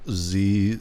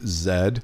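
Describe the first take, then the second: First: Said in the usual way. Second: Z said as "zed"; Canadian Z. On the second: Shown as a demonstration. American viewer quotes the Canadian name for the letter, Z as "zed". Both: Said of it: "they call Z Z".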